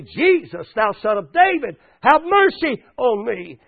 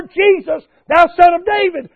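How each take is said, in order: First: Measured, drawn-out plea; crying out. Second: High, loud desperate appeal; crying out even more. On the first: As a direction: call out for mercy, not yet at full force. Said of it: "he began to cry out and say". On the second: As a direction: raise the voice and cry for mercy. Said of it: "he cried out even the more". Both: Retold or imitated.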